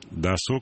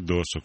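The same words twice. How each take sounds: First: The stress is on the second syllable. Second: The stress is on the first syllable. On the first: The speaker calls it right. "спасибо за правильное ударение" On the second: The speaker calls it wrong. "а не"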